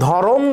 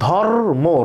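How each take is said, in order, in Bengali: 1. র আর ম এর মাঝে একটা অতিরিক্ত ও স্বরধ্বনি আসে। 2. র আর ম যুক্ত হয়, মাঝে কোনো স্বরধ্বনি নেই। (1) "এখানে রয়ের সাথে অ আছে" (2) "রয়ের সাথে কোনো স্বরধ্বনি নাই"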